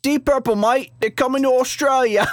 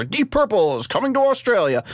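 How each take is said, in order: First: High, hammed-up Australian; mock Australian TV-ad voice, pitched way up; bad Australian accent. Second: Slight Australian lilt, higher; half-hearted attempt at an Australian accent; hint of a TV-ad Australian; bad Australian accent. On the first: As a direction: overdo a terrible Aussie accent. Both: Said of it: "that's not a good Australian accent".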